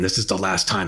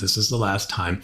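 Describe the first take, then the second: First: It sounds angry, scolding and lecturing. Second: It sounds calm, direct and conversational. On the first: The speaker stands over the listener and lectures. The speaker calls it wrong. "How dare you?" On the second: The speaker invites the listener into a conversation. The speaker calls it right. "now we're having a conversation, but then your words can still be very direct"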